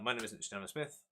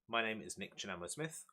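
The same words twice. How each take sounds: First: It is said at a faster pace. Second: It is said at a slower pace.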